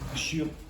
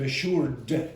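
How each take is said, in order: First: The final D sound is dropped. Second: The final D sound is pronounced. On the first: The speaker calls it wrong. "get very lazy and not pronounce the D at the end" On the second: The speaker calls it right. "Instead of assured"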